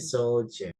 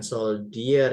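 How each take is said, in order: First: The d is sounded like a j. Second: The d is sounded as a plain d. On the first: The speaker calls it right. "D-nya dibaca jadi J" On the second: The speaker calls it wrong. "Bukan soldier ya"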